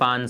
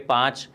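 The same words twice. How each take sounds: First: The final 'ch' sound becomes a nasal sound. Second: The final 'ch' sound is pronounced clearly. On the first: The word is joined to the next word. "इस च का उच्चारण हम अनुस्वार के sorry अनुनासिक के रूप में कर देते हैं" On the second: The word stands alone. "स्पष्ट रूप से हम उच्चारण करते हैं"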